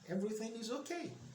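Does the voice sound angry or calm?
calm. It is said in a soft, calm tone. The speaker really is okay.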